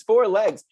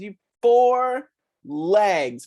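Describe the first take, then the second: First: Said in the usual way. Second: You, four legs, drawn out very slowly with four stressed; slow teaching stress. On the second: Acted. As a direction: spell it out slowly for the kids on four.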